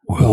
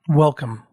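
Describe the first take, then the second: First: It is said in a creepy voice. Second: It is said in a normal voice.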